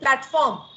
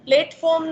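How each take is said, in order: First: The first vowel is an open, wide e. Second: The first vowel is a close, narrow e. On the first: The speaker calls it right. "પ્લે એ પહોળું ઉચ્ચારણ છે" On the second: The speaker calls it wrong. "નથી બોલતા"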